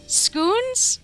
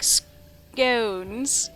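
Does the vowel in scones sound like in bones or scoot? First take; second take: scoot; bones. First: The vowel sounds like the vowel in scoot. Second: The vowel rhymes with the vowel in bones. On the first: "Was he trying to say scoons?" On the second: "scones rhymes with bones like scones"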